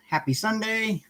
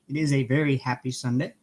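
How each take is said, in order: First: Bright lifted happy Sunday; lifted, beaming hello to the stream; cheery greeting. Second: "very" pressed, the rest settled; stress on very. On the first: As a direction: sing out the greeting to the viewers. Cheery greeting to live viewers. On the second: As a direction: punch "very" to insist on the happiness. Repeats greeting, leaning on very. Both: Real, not acted.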